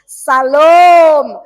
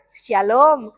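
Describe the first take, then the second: First: The o vowel is long and drawn out. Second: The o vowel is short, with a plain sh. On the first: The speaker calls it right. "Harus salom. O-nya harus panjang" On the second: The speaker calls it wrong. "jangan lagi ya"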